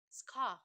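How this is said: The final r sound is dropped. "Tapi in British, we say scar"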